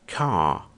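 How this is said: The R after the vowel is silent. "Já em inglês britânico se diz car, car. Ou seja, normalmente o Rzinho não é ouvido"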